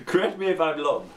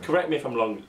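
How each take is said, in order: First: Ruler voice. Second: Mock ruler voice. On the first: Acted. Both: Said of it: "said the ruler to the piece of string".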